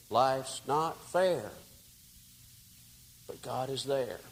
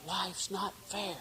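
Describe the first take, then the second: First: Tender comfort. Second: Higher and slow, a rehearsed grievance; building up righteous anger, a touch of a whine; aggrieved author rehearsing a complaint; indignant complaint. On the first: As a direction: comfort a broken man. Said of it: "all that melted away". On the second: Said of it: "And I was saying". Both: Retold or imitated.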